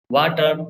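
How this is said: It is said with an Indian accent.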